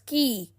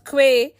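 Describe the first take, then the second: First: It is said with a plain k, like kee. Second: It is said with a kw sound, like kway. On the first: The speaker calls it right. "but is pronounced as ki" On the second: The speaker calls it wrong. "is not pronounced as que"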